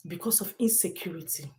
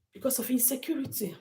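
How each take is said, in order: First: Said in the usual way. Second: Quick hushed whisper of the phrase; whispered repeat. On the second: Real, not acted. Repeating the danger to viewers, whispered. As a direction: breathe it out as a grim whisper.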